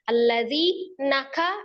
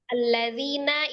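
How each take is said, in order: First: The word is broken into two parts. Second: The word is said as one unit. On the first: The speaker calls it wrong. "kepisah kan beda arti nantinya" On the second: The speaker calls it right. "itu kan satu kata"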